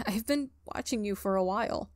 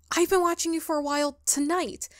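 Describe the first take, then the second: First: Said in the usual way. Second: Flustered correction. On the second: Acted. Ghost corrects creepy phrasing.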